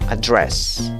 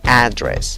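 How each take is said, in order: First: The first vowel is a weak, short sound. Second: The first vowel is an open, spread sound. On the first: "En la primera opción, la vocal es a" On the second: "la vocal es una A que se ríe"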